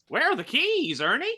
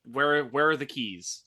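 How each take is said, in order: First: High-pitched, loud yell; yelling back. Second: Said in the usual way. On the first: Acted. Player's character calls back to Ernie for the keys, yelling. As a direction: holler the question across the room. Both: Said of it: "I'm gonna just yell back to Ernie".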